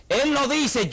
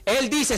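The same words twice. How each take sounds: First: Weight on "Él" at the start; stress on él. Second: Said in the usual way. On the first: Shown as a demonstration. Preacher stressing "Él" to the congregation. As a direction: press "Él" harder and higher than the rest.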